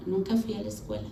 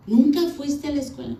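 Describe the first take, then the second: First: Subdued confession. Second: Higher incredulous question; retold disbelief. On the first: Retold or imitated. Wife admitting she never went to school, subdued. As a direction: own up quietly, pitch dropping. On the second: Husband asking if she never went to school, mock disbelief. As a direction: imitate an astonished husband, pitch raised.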